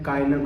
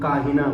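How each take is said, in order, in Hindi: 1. बीच की आवाज़ 'y' है। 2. बीच की आवाज़ 'h' है। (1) "कायना को" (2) "काहिना बोल रहे हैं"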